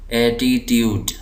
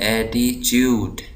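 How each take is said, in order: First: The t before u sounds like plain t. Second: The t before u sounds like ch. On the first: "जो America के लोग हैं वो इसको पढ़ते हैं ट" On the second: "जो बरतानवी लोग हैं वो इसको पढ़ते हैं एटीट्यूड, चे चे की आवाज़ निकालते हैं"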